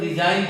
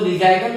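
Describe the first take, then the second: First: The word ends directly in an n sound. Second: A g sound is heard before the final n. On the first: The speaker calls it right. "रिजाइन पढ़ते हैं" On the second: The speaker calls it wrong. "रिजाइगन नहीं पढ़ के"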